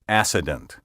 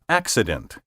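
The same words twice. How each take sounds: First: The double C is said as a single S. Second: The double C is said as K plus S. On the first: The speaker calls it wrong. "not accident" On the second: The speaker calls it right. "Thus we say accident"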